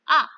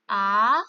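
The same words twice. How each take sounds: First: The pitch falls sharply from high to low. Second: The pitch rises from middle to high. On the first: "Nada empat turun" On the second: "Nada dua naik"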